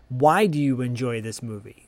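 It is asked in a sincere tone.

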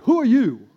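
It is said in an angry tone.

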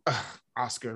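It is said in an annoyed, negative tone.

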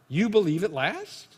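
It is said as a question.

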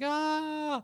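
It is a sad scream.

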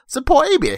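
It is said in a put-on accent.

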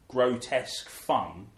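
The stress is on grotesque.

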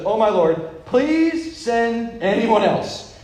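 The line is read in a desperate, pleading way. The speaker calls it right. "You should read it like this"

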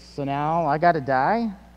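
It is asked as a question, rising at the end.

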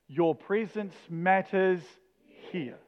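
The stress falls on the word 'here'. "each time we're going to put the emphasis on the next word"

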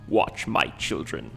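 It is said in a deep, weird voice.

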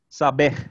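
It is said with Portuguese pronunciation, final stress. "the stress was on the final syllable there"

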